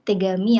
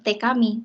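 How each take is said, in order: First: The second part begins with a g sound. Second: The second part begins with a k sound. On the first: The speaker calls it right. "tapi tegami yang artinya surat" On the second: The speaker calls it wrong. "bukan lagi te kami"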